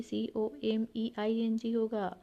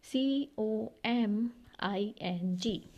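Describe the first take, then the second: First: "C O M ई I N G" spelled letter by letter with the E kept in; wrong spelling. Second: "C O M I N G" spelled very slowly without the E; correct spelling. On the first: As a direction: spell "C O M ई I N G" slowly, as the wrong version. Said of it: "आप ऐसे मत सोचिएगा". ("सी O M ई I N G" को गलत वर्तनी की तरह धीरे बोलें) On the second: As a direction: spell out "C O M I N G" letter by letter, very slowly, as the fix. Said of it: "ई जो है वो हट जाएगा". ("सी O M I N G" को सही वर्तनी की तरह बहुत धीरे बोलें) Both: Shown as a demonstration.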